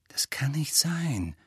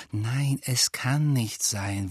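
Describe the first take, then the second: First: Slow, hushed disbelief; quiet contradiction. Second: Slow, grim denial. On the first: Hermine contradicting Ron's suspicion of a traitor, quietly. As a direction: whisper the objection slowly. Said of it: "widersprach Hermine leise". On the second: Hermine rejecting Ron's charge of naivety, grim. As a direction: deny it slowly and grimly. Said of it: "sagte Hermine grimmig". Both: A narrator's reading.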